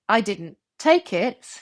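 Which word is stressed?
take. The word take carries the main stress. The speaker did something else with it. "I did something else"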